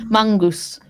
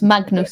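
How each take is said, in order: First: The name is said the Norwegian way. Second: The name is said the English way. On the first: "it's more like Mangus" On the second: "than it is Magnus"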